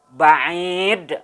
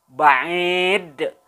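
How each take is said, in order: Both takes have the same delivery.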